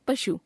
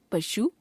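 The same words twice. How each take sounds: First: Said in the usual way. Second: पशु ending on long ऊ; wrong pronunciation. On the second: Shown as a demonstration. Teacher showing a common error, पशु with long last vowel. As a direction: stretch शु to शू in पशु. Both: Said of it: "अशुद्ध".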